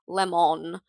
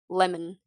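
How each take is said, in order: First: The second syllable has a full, clear vowel. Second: The second syllable has a reduced, weak vowel. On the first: The speaker calls it wrong. "we don't say lemon" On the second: The speaker calls it right. "with an I N"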